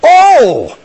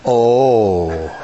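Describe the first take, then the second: First: It sounds positive and happy. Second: It sounds sorrowful, almost painful.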